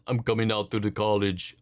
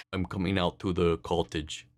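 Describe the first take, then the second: First: Thick Russian accent attempt, Arnold-ish; mock Russian accent, first try. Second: Lower, softer Russian accent retry; second go at a Russian accent, still Arnold-like; Russian accent, second attempt, a bit quieter. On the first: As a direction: try it as a Russian hockey player. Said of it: "Like, in a Russian accent?". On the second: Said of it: "still was a little too Arnold". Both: Shown as a demonstration.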